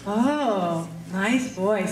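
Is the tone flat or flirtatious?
flirtatious. It is said in a flirtatious, playful tone.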